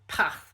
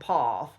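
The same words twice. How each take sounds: First: It is said with a Nottingham accent. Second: It is said with a southern standard accent. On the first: "the Nottingham accent does tend to reassert itself" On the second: "rather than"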